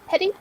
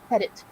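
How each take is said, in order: First: The name ends in an ee sound. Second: The name ends in a t sound. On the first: The speaker calls it wrong. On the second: The speaker calls it right.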